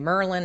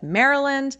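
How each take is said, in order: First: It is said in a clipped Baltimore accent. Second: It is said in full standard pronunciation.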